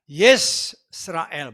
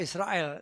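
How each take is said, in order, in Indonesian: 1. Nama itu dimulai dengan bunyi 'yeh'. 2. Nama itu dimulai dengan bunyi 'ee'. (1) "Yesrael, bukan Israel ya" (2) "Kita akan lebih kenal Israel"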